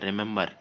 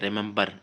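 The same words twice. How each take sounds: First: No b sound is pronounced in the middle. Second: A b sound is pronounced in the middle. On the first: The speaker calls it right. "बी silent रहता है" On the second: The speaker calls it wrong. "बहुत सारे लोग इससे पढ़ेंगे रिमेम्बर। ये रिमेम्बर नहीं है"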